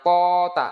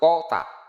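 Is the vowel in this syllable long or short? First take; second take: long; short. First: The vowel is drawn out long. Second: The vowel is short and clipped. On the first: The speaker calls it wrong. "bukan tota" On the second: The speaker calls it right. "nggak ada panjang ini langsung tota"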